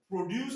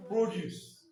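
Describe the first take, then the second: First: "Produce" as the first of two contrasted forms; contrasting stress pattern. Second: "Produce" as the second of two contrasted forms; contrasting stress pattern. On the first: Teacher drilling same spelling, first form of "Produce". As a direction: set out "Produce" clearly for contrast. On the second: Teacher drilling same spelling, second form of "Produce". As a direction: answer with the other "Produce", falling. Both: Shown as a demonstration. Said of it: "Stress pattern".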